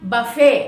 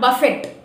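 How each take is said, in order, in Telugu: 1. ఈ పదం t శబ్దం లేకుండా ముగుస్తుంది. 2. ఈ పదం t శబ్దంతో ముగుస్తుంది. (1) "బఫే not బఫెట్" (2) "not బఫెట్"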